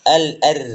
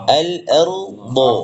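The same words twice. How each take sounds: First: Al-ar cut short with a thin ra; wrong pronunciation. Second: Slow al-ardu with a thick ro; correct pronunciation. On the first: Teacher showing the mistaken reading al-ar. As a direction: clip it to al-ar, the wrong way. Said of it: "kita baca al-ar". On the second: Teacher showing the correct reading al-ardu. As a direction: draw out al-ardu with a full thick ro. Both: Shown as a demonstration.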